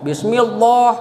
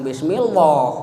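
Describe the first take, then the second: First: The l sound is said thin and light. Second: The l sound is said heavy and dark. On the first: The speaker calls it right. "tarkik itu artinya tip, tip" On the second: The speaker calls it wrong. "Jangan bismillah"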